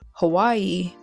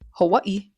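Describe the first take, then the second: First: The last vowels run together without a break. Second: A short glottal catch separates the last vowels. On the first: The speaker calls it wrong. "there's no pause in between the eyes" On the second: The speaker calls it right. "there's a little pause in between the Hawaii"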